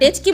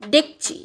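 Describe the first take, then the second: First: The ch sound comes before the k sound. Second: The k sound comes before the ch sound. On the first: This is the form not used locally. "আমরা ডেচকি বলি না" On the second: This is the local everyday form. "বলি ডেকচি"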